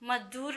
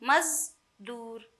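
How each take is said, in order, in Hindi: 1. बीच का व्यंजन "j" की ध्वनि है। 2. बीच का व्यंजन "z" की ध्वनि है।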